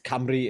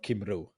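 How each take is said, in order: First: The name is said the Welsh way. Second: The name is said as it is spelled. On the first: The speaker calls it right. "It's Camry instead of" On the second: The speaker calls it wrong. "how you write it"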